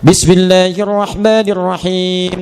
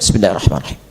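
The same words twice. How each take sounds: First: It is recited aloud, clearly voiced. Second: It is recited quietly, under the breath.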